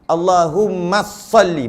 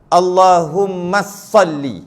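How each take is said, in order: No difference in how they are said.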